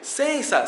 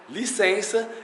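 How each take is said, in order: First: The first syllable is dropped, leaving sensa. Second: All syllables are said, as licença.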